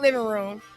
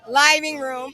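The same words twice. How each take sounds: First: The first syllable has the short vowel of 'give'. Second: The first syllable has the long vowel of 'five'. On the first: The speaker calls it wrong. "It's not living room" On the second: The speaker calls it right. "L I V E I N G. That's why I'm saying it that way"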